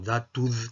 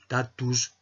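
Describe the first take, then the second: First: It begins with a voiced d sound. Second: It begins with a voiceless t sound. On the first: "empezamos a leerlo, ya digo, como datud, que seguramente era la pronunciación que tenía" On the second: "en vez de leerlo tatus"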